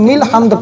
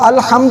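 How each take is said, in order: First: The word starts with a linked 'mil' sound. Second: The word starts with a separate 'al' sound. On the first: The speaker calls it right. "बल्कि मिल हम्द पढ़ना है" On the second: The speaker calls it wrong. "अल-हम्द नहीं पढ़ना"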